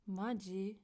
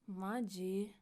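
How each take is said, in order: First: It is said in an annoyed, exasperated tone. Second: The same.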